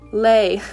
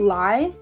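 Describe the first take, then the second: First: The vowel sounds like the one in 'day'. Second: The vowel sounds like the one in 'my'. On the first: This is how most other players say it. The speaker calls it right. "you guys probably already say lay" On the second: This is the speaker's own habitual way of saying it. The speaker calls it wrong. "but I call it lie"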